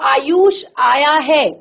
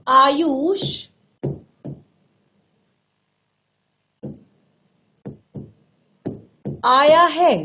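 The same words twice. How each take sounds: First: It sounds like a plain statement. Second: It sounds like a surprised exclamation. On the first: It simply gives information. "सामान्य सूचना" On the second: It expresses astonishment that he came. "आश्चर्य का भाव।"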